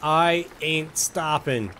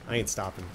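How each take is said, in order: First: Drawn out. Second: Said in the usual way. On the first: Shown as a demonstration. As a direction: drag out every word of "I ain't stopping".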